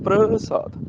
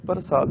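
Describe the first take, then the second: First: ਪ੍ਰਸਾਦ with pr joined as one cluster, prasaad; ਪ੍ਰਸਾਦ said right, p and r together; ਸਹੀ ਉਚਾਰਨ ਪ੍ਰਸਾਦ; correct pronunciation. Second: ਪ੍ਰਸਾਦ split as parsaad with a vowel after p; ਪ੍ਰਸਾਦ said the wrong way, pa-r-saad; ਗਲਤ ਉਚਾਰਨ ਪਰਸਾਦ; wrong pronunciation. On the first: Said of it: "ਇਹਨੂੰ ਪ੍ਰਸਾਦ ਪੜ੍ਹਨਾ ਹੈ". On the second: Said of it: "ਇਹਨੂੰ ਪ੍ਰਸਾਦ ਪੜ੍ਹਨਾ ਹੈ, ਪ੍ਰਸਾਦ ਨਹੀਂ". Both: Shown as a demonstration.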